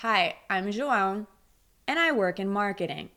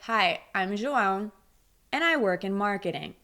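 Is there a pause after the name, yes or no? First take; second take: yes; yes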